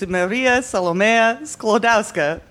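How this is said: It is said in a thick foreign accent. "very thick accent"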